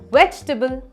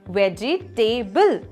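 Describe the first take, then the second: First: The syllables are squeezed into fewer. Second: All the syllables are said in full. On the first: The speaker calls it right. "Try this way. ... Perfect" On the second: The speaker calls it wrong.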